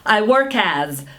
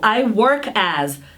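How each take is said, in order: First: The phrase is said at a faster pace. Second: The phrase is said at a slower pace. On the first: "Vamos acelerar um pouco?" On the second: "Vamos repetir comigo?"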